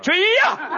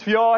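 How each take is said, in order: First: It is said forcefully, with strong impact. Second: It is said gently, without much force.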